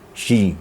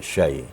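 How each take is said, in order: First: The vowel collapses into a plain i sound. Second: The vowel is a soft, gliding ai sound. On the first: The speaker calls it wrong. "Jangan uh, sampai mengarah kepada i" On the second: The speaker calls it right. "Len itu artinya lembut kan? Ha, lembut ya"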